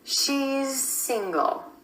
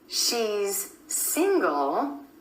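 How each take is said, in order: First: The Z sound flows directly into the S. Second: The Z and S sounds are separated.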